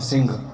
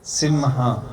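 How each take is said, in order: First: It ends in a nasal 'ng' without a vowel. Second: It has an 'm' sound followed by 'ha'. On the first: The speaker calls it wrong. "हमारे यहाँ में सिंह कहते हैं, ... सिंह नहीं होता" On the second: The speaker calls it right. "जो pronunciation है, जो उच्चारण है"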